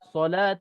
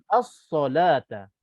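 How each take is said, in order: First: The word starts directly without the article sound. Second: The word starts with the article sound as. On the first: The speaker calls it wrong. "dia patah balik dia ambil solata saja" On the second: The speaker calls it right. "bentuk yang sempurna as-solata"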